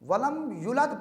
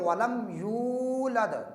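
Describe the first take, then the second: First: The vowel after y is cut short. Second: The vowel after y is drawn out long. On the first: The speaker calls it wrong. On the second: The speaker calls it right.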